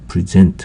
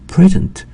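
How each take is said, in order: First: The stress is on the second syllable. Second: The stress is on the first syllable. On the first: It is a verb meaning to present or show. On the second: It is a noun meaning a gift.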